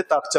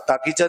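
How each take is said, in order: First: تاکچہ said short, تاک then چہ with no vowel between; correct form. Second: تاکیچہ said with an extra ee sound between تاک and چہ; wrong form. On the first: Teacher giving students the right form: clipped تاکچہ with no ee. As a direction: run تاک straight into چہ. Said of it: "تاکچہ بولتے ہیں". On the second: Teacher showing students the wrong way to say it: تاکیچہ with an added ee. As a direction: stretch it out as تا-کی-چہ, the common mistake. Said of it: "تاکیچہ نہیں بولتے". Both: Shown as a demonstration.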